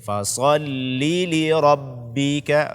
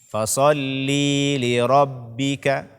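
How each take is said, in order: First: The vowel between the two l sounds is short. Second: The vowel between the two l sounds is drawn out. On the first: The speaker calls it right. "Berarti dia dibaca pendek" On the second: The speaker calls it wrong. "menambah ya mad pada kata fasholli"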